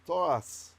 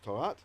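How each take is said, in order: First: The word ends with an s sound. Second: The word ends with a plain t sound.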